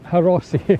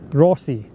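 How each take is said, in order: First: The name starts with an H sound. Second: The name starts without an H sound. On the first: The speaker calls it wrong. "Not the Haros Harossi" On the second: The speaker calls it right. "The H is silent"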